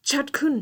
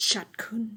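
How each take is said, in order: First: "ชัดขึ้น" said loud and high, much louder; loud build. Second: Whispered build. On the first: Teacher stressing clearer speech to viewers. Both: Shown as a demonstration. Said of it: "ให้พูดภาษาอังกฤษได้".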